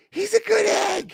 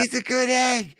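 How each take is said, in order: First: Very high, slow mock-Irish squeal; exaggerated Irish accent. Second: High mock-Irish voice; put-on Irish accent. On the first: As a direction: stretch it out far higher in fake Irish. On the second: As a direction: pipe it up in a fake Irish accent. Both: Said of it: "they were from Ireland".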